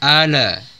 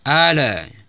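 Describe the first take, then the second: No difference in how they are said.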